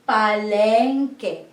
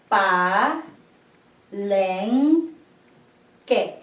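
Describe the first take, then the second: First: The word is said smoothly without pauses. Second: Each syllable is said separately with pauses.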